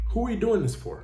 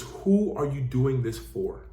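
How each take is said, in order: First: Doing lifted higher; higher repeat. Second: WHO stressed, said slowly; slow emphatic question. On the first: Coach repeating the question to drive it home, stress on doing. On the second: Coach pressing listeners on their purpose, slow stress on who. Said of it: "more importantly". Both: Shown as a demonstration.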